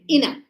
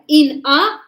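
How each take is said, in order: First: The two words blend into one word. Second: The two words are said apart, clearly. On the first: The speaker calls it right. "we say inna" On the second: The speaker calls it wrong. "instead of in a"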